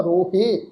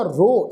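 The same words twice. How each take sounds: First: ਰੋਹੇ with an added -he syllable; wrong pronunciation. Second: ਰੋ as a single syllable, ro; correct pronunciation. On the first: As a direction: say ਰੋਹੇ as rohe, two full syllables. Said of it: "ਪਰ ਇਸ ਸ਼ਬਦ ਦਾ". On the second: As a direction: say ਰੋ short, with no he after it. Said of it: "ਇਹਦਾ ਉਚਾਰਨ ਹੋਏਗਾ". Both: Shown as a demonstration.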